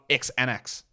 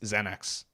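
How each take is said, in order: First: The word begins with an 'eks' sound. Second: The word begins with a 'z' sound. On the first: The speaker calls it wrong. "It's not X-Anax" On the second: The speaker calls it right. "that's how X's are pronounced"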